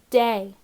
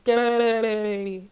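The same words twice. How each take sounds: First: It is said in a normal speaking voice. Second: It is said in a gurgling underwater voice. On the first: "let's read it together" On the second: "Let's read it like we're underwater"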